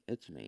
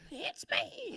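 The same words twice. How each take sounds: First: It is said in a flat robotic voice. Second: It is said in a high baby-like voice. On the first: "I do good robot" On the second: "I do a good baby voice"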